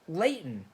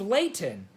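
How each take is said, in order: First: The middle T sound is dropped. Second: The middle T sound is clearly pronounced. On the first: "you'll often hear people say Layton" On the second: "a city here named Layton"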